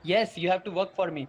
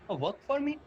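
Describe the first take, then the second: First: Plain-spoken, decided acted answer; firm confirmation. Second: Questioning disbelief. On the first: Rich dad laying down his condition to the boys, firm. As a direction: confirm it as a settled statement. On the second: Acted. Boy to Mike's dad on hearing the condition, questioning. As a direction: ask it back, taken aback.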